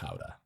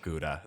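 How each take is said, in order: First: Gouda is said with a Dutch pronunciation. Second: Gouda is said with an English pronunciation. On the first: This is how it is said in Holland. The speaker calls it right. "It's pronounced Gouda" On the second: This is how people usually order it. The speaker calls it wrong. "people order Gouda"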